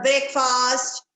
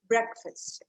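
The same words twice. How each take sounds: First: Breakfast as two full words, BRAKE-FAAST; long vowels in both halves of breakfast; wrong pronunciation. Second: Breakfast as BREK-fust; breakfast with a weak, reduced second syllable; correct pronunciation. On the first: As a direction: say breakfast slowly as break plus fast. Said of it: "It is not breakfast". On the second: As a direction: say breakfast with short vowels. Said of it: "It is breakfast". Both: Shown as a demonstration.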